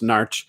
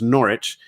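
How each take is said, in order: First: It is squeezed into one short syllable. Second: It is said in the usual English way. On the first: The speaker is from the town itself. "if you're local, is pronounced Narch" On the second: The speaker is from elsewhere in the country. "If you're from England, it's pronounced Norwich"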